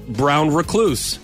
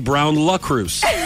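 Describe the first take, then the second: First: The second word is said as 'recluse'. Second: The second word is said as 'lucruse'. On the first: The speaker calls it right. "And like brown recluse" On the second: The speaker calls it wrong. "I say brown lucruse. Like it's a French spider"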